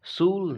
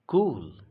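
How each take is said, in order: First: सूल with an S instead of K, said high; wrong S sound. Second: कूल with a hard K, said loud; hard K sound. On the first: Teacher warns students off the wrong reading. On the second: Teacher shows students the right K reading. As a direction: hit the K in कूल. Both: Shown as a demonstration. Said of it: "सूल नहीं पढ़ते".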